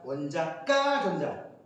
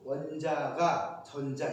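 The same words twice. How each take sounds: First: The 가 syllable starts with a tensed kk sound. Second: The 가 syllable starts with a plain g sound. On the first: The syllable means value. The speaker calls it right. "이게 아니라 원자가 전자" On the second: The syllable is the subject particle. The speaker calls it wrong. "이게 주격조사 가가 아니고"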